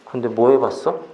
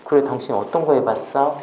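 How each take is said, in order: First: It sounds challenging, like picking a fight. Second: It sounds warm and interested.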